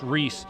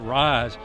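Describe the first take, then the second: First: The vowel sounds like the 'ee' sound. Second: The vowel sounds like the 'eye' sound. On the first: The speaker calls it right. "I believe it's Reese" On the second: The speaker calls it wrong. "I think we've been uh, pronouncing it Rise"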